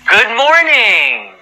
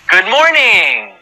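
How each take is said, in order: Both takes have the same delivery.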